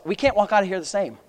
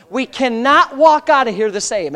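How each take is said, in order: First: Said in the usual way. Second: "cannot" spelled out firmly, raised and deliberate; preacher driving home "cannot walk"; emphatic restatement. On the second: Real, not acted. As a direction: hit "cannot" and "walk" hard, word by word. Repeats the line with emphasis.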